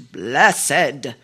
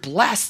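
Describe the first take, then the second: First: The word is said with two syllables, ending in a separate 'ed' sound. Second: The word is said with one syllable, ending in a plain 't' sound. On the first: "changed it into blessed" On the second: "we took the word blessed"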